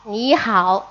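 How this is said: It is said with Beijing Mandarin pronunciation. "En Pekín, en pequinés, pues se pronuncia ni hao"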